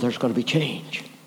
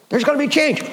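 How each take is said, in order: First: It is said in a hesitant, wary tone. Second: It is said in a hopeful, eager tone. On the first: The change is not really wanted. "I'm not sure we want change" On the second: The change is welcome. "We want change"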